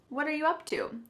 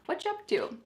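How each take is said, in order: First: Each word is said clearly and separately. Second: The words run together quickly and reduced.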